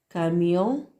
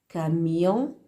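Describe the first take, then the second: No difference in how they are said.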